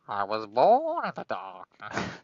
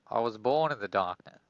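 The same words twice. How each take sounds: First: It is said in an imitation of Bane's voice. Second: It is said in a normal voice.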